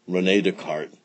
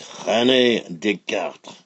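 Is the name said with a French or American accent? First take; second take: American; French. First: The name is said with an American accent. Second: The name is said with a French accent.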